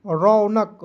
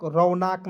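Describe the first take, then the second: First: रौनक with a short second vowel, rau-nuk; correct pronunciation. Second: रौनक with a long aa, rau-naak; wrong pronunciation. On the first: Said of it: "रौनक नहीं पढ़ेंगे". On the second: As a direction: stretch the end of रौनक into naak. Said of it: "नहीं पढ़ेंगे". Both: Shown as a demonstration.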